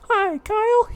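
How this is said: It is said in a high falsetto voice. The speaker calls it right.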